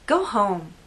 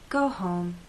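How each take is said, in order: First: It is said in a harsh, rude tone. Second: It is said in a kind, gentle tone. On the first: The speaker wants the person out of the house. "could be said to a person who came to a party of mine uninvited" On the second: The speaker cares that the person should rest. "could be said to a coworker who's at the office very late"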